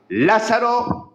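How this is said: The name is called out with firm commanding authority. The caller gives an order that must be obeyed. The speaker calls it right. "Es la orden del Dios soberano"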